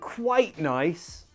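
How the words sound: Quite is said hesitantly, sounding unsure. It is only a little nice. "if you say it like you're unsure"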